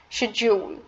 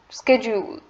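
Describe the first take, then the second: First: It is said in a British accent. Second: It is said in an American accent. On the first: "according to British English" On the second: "according to the American English"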